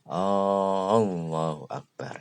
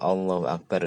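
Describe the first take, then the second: First: The opening vowel is drawn out long. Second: The opening vowel is kept short. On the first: It asks whether God is the greatest. The speaker calls it wrong. "Anda baca panjang" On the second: It states that God is the greatest. The speaker calls it right. "itu Allah Maha Besar"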